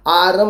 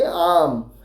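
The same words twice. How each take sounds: First: आरम with the R fully sounded. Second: आम with no R sound; silent R. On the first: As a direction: say आरम in two syllables, aa-rum. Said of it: "आरम नहीं बोलते हैं". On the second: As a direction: say आम as one long open syllable. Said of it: "लेकिन हम ऐसे बोलते हैं आम". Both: Shown as a demonstration.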